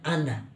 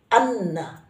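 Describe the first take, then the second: First: The n sound is short and single. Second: The n sound is held doubled. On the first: The speaker calls it wrong. "bukan ana" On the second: The speaker calls it right. "huruf n satu lagi jadi anna"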